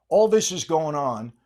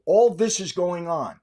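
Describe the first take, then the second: First: Unvoiced, hushed "All this is going on"; whisper. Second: Said in the usual way. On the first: Real, not acted. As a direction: drop to a whisper. Same words repeated.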